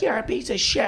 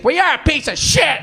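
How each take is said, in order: First: Mock outrage, higher but held back; lightly voiced irate heckler; angry lady. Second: High-pitched mock outrage; hammed-up irate heckler, voice shooting up; angry lady. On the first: Comic retelling a lady's insult after the punchline, mild mock anger. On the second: Comic imitating the lady who went bananas, high furious insult. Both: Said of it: "this one lady went bananas".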